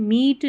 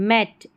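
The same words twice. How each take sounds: First: Meet with a long "ee" vowel; mistaken "meet" reading. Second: Met with a short "eh" vowel; correct "met" pronunciation. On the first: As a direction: misread it as meet, like "seat". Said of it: "meet नहीं पढ़ेंगे". (meet यानी मीट, लंबी "ई" के साथ) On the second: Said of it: "को met पढ़ना है". (met यानी मेट, छोटे "ए" के साथ) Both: Shown as a demonstration.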